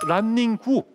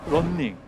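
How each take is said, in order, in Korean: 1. 이 단어는 덧붙은 모음으로 끝나요. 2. 이 단어는 자음으로 끝나요. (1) "이게 일본식인 거거든요"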